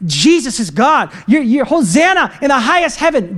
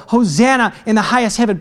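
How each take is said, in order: First: Raised, slowed acclamation; mock crowd shouting. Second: Said in the usual way. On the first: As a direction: imitate a praising crowd calling out. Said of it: "just shouting".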